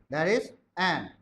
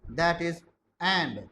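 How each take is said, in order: The two takes are said the same way.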